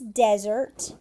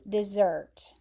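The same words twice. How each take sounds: First: The stress is on the first syllable. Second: The stress is on the second syllable. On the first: A dry sandy place (noun). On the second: To leave someone behind (verb).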